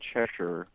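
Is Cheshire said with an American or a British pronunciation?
American. The name is said with an American pronunciation. This is how people in the US say it. "over here we might say Cheshire"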